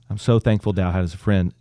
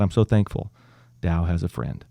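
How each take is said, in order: First: It is said jokingly, with a laugh. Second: It is said seriously and solemnly.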